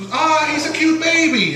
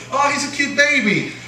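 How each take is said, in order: First: High cooing aunt voice, fond and sweet; doting aunt. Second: Second doting aunt. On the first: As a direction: coo over the baby like an aunt. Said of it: "my aunt would be, would see". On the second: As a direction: coo it like the other aunt. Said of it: "my other aunt would say". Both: Retold or imitated.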